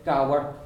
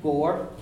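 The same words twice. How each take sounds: First: Gower with a diphthong, gow-er; Connemara diphthong. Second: Gore with a closed O, no diphthong. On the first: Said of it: "In Connemara they have a diphthong". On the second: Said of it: "it's a closed O sound". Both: Shown as a demonstration.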